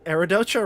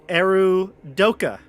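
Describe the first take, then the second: First: The consonant before the last vowel is 'ch'. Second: The consonant before the last vowel is 'k'. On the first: The speaker calls it wrong. "I've been pronouncing Eridocha wrong" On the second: The speaker calls it right. "The C H says "k" in this instance"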